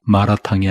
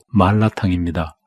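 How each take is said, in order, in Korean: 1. 가운데 자음은 한 번 튀기는 R 소리입니다. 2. 가운데 자음은 또렷하게 길게 잡는 L 소리입니다. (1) "마라탕이 아니고" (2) "엄밀하게는 ... 말라탕입니다"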